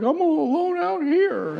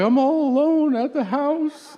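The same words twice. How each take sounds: First: Very high, hammed-up wail; fake crying. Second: Slow, high-pitched whiny wail; mock crying. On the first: Husband on the phone backstage to his wife, badly faked wailing. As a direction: outdo the wife's whimper with phony misery. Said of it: "like, an acting exercise". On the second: Wife on the phone to her touring husband, mock tearful wail. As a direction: imitate a tearful wife, stretching it out. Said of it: "she cries when I leave".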